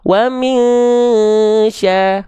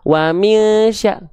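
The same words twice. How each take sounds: First: The nasal sound is held for two counts. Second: The nasal sound is rushed and short. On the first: The speaker calls it right. "ditahan dua harokat" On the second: The speaker calls it wrong. "Jangan buru-buru"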